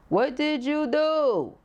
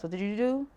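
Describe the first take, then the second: First: High, slow, every word stretched in "What did you do?"; rousing, stretched-out "What did you do?" falling away on "do"; drawn-out challenge. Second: Said in the usual way. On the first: Real, not acted. Question repeated for dramatic emphasis.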